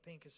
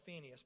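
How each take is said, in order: First: The name is said with a p sound, Pinchas. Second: The name is said with an f sound, Phineas. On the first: The speaker calls it right. "I think Pinchas is the right pronunciation" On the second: The speaker calls it wrong. "it's what I used to call Phineas"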